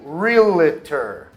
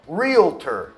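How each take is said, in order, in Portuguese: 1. Tem uma vogal extra 'ee' no meio. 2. Não tem vogal extra no meio. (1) "Muita gente coloca um som de i ali no meio" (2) "pronunciada corretamente"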